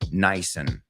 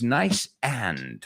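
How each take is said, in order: First: The two words are run together, reduced. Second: Both words are said fully and separately. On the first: This is how the phrase is actually spoken. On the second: This is how the phrase is written.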